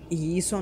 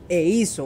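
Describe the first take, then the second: First: The word before 'hizo' sounds like 'ee'. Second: The word before 'hizo' sounds like 'eh'. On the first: The speaker calls it wrong. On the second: The speaker calls it right.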